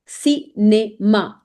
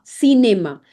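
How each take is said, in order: First: "Cinema" split slowly into si, ne, ma; syllable-by-syllable demo. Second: Said in the usual way. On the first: Shown as a demonstration. Teacher breaks down French word, slow si-ne-ma. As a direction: say "Cinema" with pauses between syllables. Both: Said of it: "C I gives a sound of C".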